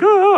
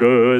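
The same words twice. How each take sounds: First: High, loud mock wail; short high-pitched pretend sob; imitated crying. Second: Low mock moan; low-pitched fake crying, played for comedy; imitated crying. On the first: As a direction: wail it like the wife sobbing, exaggerated. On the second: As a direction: moan along in pretend sympathy sobs. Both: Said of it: "start kinda crying with her".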